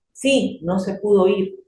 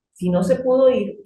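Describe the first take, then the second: First: "Sí," slow, with a clear pause after "Sí,"; comma after sí. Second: "Si no se pudo ir" run together, higher, pitch held up; no comma. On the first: Teacher reading the sentence with a comma after "Sí,". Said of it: "El sí, coma". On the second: Teacher showing the reading with no comma. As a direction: read "Si no se pudo ir" as one unfinished clause. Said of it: "yo lo voy a interpretar". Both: Shown as a demonstration.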